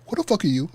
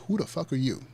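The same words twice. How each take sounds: First: Loud, high-pitched confrontational retort; indignant challenge. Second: Said in the usual way. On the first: Retold or imitated. Girl confronting the new man in the hallway, loud indignant challenge. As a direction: fire it at the stranger as a challenge.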